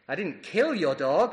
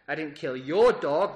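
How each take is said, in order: First: The word 'kill' carries the emphasis. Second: The word 'your' carries the emphasis. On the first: The dog was harmed some other way. "That suggests that you've perhaps harmed it in some other way" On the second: Someone else's dog was killed. "That suggests that you did kill someone else's dog"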